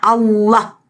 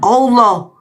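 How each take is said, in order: First: The vowels are pronounced as open 'a' sounds. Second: The vowels are pronounced as rounded 'o' sounds. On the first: The speaker calls it right. "Bacanya Allah" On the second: The speaker calls it wrong. "bukan Allah"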